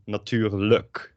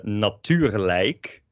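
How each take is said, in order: First: "natuurlijk" ending in a reduced "luk"; slow "natuurlijk" with unstressed "-lək"; unemphasized -lijk ending. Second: "natuurlijk" ending in a full "like", drawn out; emphasize the last syllable of "natuurlijk" as "like"; slow "natuurlijk" with a clear diphthong in -lijk; stressed full -lijk ending. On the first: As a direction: weaken the end of "natuurlijk" to a schwa, "-luk". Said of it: "we say". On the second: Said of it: "instead of saying". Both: Shown as a demonstration.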